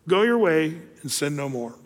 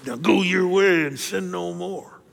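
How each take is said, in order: First: Said in the usual way. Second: Slow, stern and condemning; stern scolding. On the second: Shown as a demonstration. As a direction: lay down the law, slowly. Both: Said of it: "I think Jesus said it like this".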